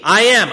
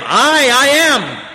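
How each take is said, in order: First: Said in the usual way. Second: "I, I am" slowed down with weight on "I"; emphatic I am. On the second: Shown as a demonstration. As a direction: repeat "I, I am" slowly and emphatically. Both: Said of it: "It's emphatic".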